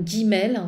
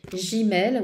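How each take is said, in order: First: Guimel avec un G dur, comme « gui-mel »; prononciation en G dur. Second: Gimel avec un G doux, comme « ji-mel »; prononciation en J. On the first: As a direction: say Guimel with a hard G at the start. (Guimel prononcé avec un G dur) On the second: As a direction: say Gimel with a French J sound at the start. (Gimel prononcé « jimel », G doux) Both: Shown as a demonstration. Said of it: "c'est Gimel ou Guimel".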